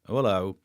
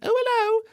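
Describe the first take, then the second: First: It is said in his normal man's voice. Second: It is said in a put-on woman's voice.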